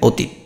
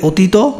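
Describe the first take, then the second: First: The word ends on a bare 't' consonant. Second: The word ends with an added 'o' vowel. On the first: The speaker calls it right. "আর হসন্ত দিলে অতীত" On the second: The speaker calls it wrong. "হসন্ত না দিলে অতীত"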